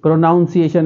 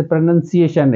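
First: प्रोनाउंसिएशन said with "noun" in the middle, pro-NOUN-si-ation; wrong pronunciation. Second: प्रोनंसिएशन said as pro-NUN-si-ation, no "noun" sound; correct pronunciation. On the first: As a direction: show the mistake प्रोनाउंसिएशन with a noun sound. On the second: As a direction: say प्रोनंसिएशन with a short nun in the middle. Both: Shown as a demonstration. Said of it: "प्रोनाउंसिएशन नहीं है".

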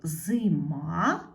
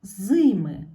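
First: Зима with the final А stressed and rising; stress on last syllable. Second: Зими with a very loud first И, falling; stress on first syllable. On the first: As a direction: lean on the А in Зима. (наголос на А в кінці слова Зима) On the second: (сильний наголос на перше И у слові зими) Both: Shown as a demonstration. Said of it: "дібрати перевірні слова".

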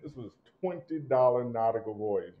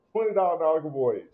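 First: Said in the usual way. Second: Higher and louder, punching the price; loud incredulous repeat of the price; emphatic repeat. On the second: Real, not acted. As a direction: hammer home how cheap it is.

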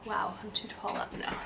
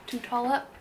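First: Said in the usual way. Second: Puzzled self-correcting repeat; questioning own words. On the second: Real, not acted. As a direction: repeat it, doubting the phrase. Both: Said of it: "Good English, [name]".

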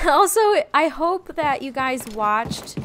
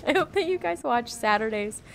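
First: Laughing through the words. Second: Said in the usual way. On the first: Real, not acted. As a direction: giggle while you say it. Laughing restart of sentence.

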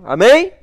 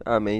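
First: Loud high rising amém, like a preacher calling out; call to the audience. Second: Said in the usual way. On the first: Real, not acted. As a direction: shout the amém up as a question to the crowd. Chamando a resposta da plateia. (amém gritado e agudo, como um pregador chamando o público)

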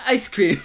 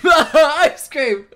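First: Said in the usual way. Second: Laughing, higher and louder; amused repeat. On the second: Real, not acted. Reacting to her ice cream demand, amused laughing repeat.

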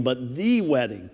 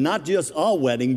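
First: "the" stressed as "thee". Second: "a" stressed as a long "ay". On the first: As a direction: make "the" mean the one and only. Contrasts "the" with "a" wedding. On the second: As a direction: lean on "a" to set up a contrast. Contrasts "a" with "the" wedding. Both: Real, not acted.

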